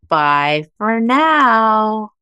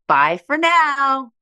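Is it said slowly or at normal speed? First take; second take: slowly; normal speed. First: It is said very slowly. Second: It is said at normal speed.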